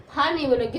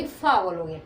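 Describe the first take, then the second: First: फा with a short flat a, the way not to say it; wrong form. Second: फा said lower, the a rounded toward aw; right form. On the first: Teacher showing the wrong फा sound. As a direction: show the wrong फा. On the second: Teacher giving the right फा sound. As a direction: show the right फा. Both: Shown as a demonstration.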